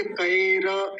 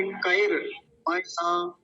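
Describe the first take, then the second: First: "कएर" ending in ra with a vowel; wrong full ra. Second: "कएर मया" slow, r closed straight into ma; correct half r. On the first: Teacher shows what not to say, full ra. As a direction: open the end of "कएर" into ka-e-ra. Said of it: "पूरा नहीं बोलेंगे". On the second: Teacher corrects with the half r, slow demonstration. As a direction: join "कएर मया" as ka-er-ma-yaa. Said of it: "र को आधा ही रखेंगे". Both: Shown as a demonstration.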